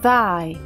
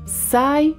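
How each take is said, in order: First: It begins with th, tongue between teeth. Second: It begins with an s sound. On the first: The speaker calls it right. "a ponta da língua deve estar entre os dentes" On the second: The speaker calls it wrong. "Não é sai"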